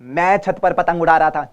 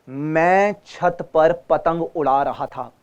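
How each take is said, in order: First: The syllables are rushed and run together. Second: Each syllable is spoken clearly and evenly. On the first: The speaker calls it wrong. "नहीं" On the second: The speaker calls it right. "साफ साफ बोलना"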